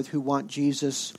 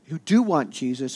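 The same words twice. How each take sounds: First: Said in the usual way. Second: Who do want Jesus, with do hit firmly; stress on do. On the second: Shown as a demonstration. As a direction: do pressed hard, the rest plain.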